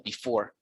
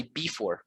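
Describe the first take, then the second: First: "before" with the weight on "fore"; light "be", strong "fore" in "before"; correct second-syllable stress. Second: "before" stressed on "be" instead of "fore"; wrong first-syllable stress. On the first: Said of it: "which is the main syllable in before". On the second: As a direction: misplace the beat in "before": BE-fore. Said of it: "we do not say before". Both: Shown as a demonstration.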